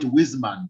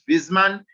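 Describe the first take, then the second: First: The name begins with a W sound. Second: The name begins with a V sound. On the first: The speaker calls it wrong. "though some people would call it Wiesmann" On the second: The speaker calls it right. "but it is Wiesmann because um, the Germans don't have a W in pronunciation"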